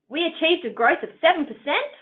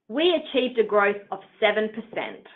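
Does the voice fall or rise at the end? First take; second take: rise; fall. First: The pitch rises at the end of the sentence. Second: The pitch falls at the end of the sentence. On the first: The speaker seems unsure of the data. The speaker calls it wrong. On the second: The speaker seems confident in the data. The speaker calls it right.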